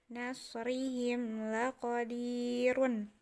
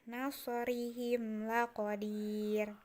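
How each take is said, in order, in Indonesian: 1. Frasa ini berakhir dengan akhiran 'run' yang utuh. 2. Frasa ini berakhir pada bunyi 'r' yang terhenti.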